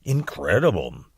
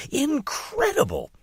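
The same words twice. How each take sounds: First: Low, dutiful and half-hearted; just going along with her; unenthusiastic echo. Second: High, swooping and thrilled; gushing excitement. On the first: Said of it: "Didn't sound to me like he was quite as enthusiastic". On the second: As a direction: sell it like the best thing ever. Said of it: "as enthusiastic as my mother". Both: Acted.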